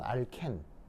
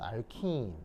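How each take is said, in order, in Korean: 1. 일본식 영향을 받은 방식으로 발음합니다. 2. 미국식 방식으로 발음합니다. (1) "친일 발음으로는" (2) "친미 발음으로는"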